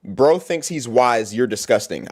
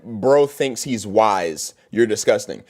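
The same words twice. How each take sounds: First: Low, slow sneering read; mocking a hater comment again. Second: Low, slow sneering read; mocking a hater comment. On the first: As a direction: spell it out slowly to mock it. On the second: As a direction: drag out the words in a dull mocking tone.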